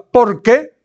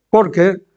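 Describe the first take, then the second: First: "porque" lifted high with a rising tune; a preacher pointing out the key word "porque"; stress on porque. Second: Said in the usual way. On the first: Shown as a demonstration. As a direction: hit "porque" hard and high, rising at the end. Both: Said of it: "quiero remarcar la palabra".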